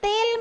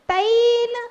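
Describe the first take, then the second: First: The first vowel is a plain 'e'. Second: The first vowel is the diphthong 'ai'. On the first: The speaker calls it wrong. "तेल मत बोलना" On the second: The speaker calls it right. "तैल पूरा"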